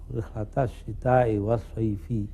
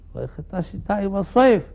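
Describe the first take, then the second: First: The last word ends with an audible i vowel. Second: The last word ends without a final vowel. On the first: The reader keeps the written vowel even at the stop. The speaker calls it wrong. "i-nya ya" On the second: The reader stops at the pause mark. The speaker calls it right. "karena ada wakaf"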